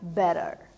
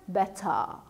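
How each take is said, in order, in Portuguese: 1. O t soa como um r rápido. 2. Um t claro, com o final como "a". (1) "O sotaque americano, ele tem um som mais aberto... o T ele soa como R" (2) "O britânico... o T é realmente pronunciado como T e o E R fica como A"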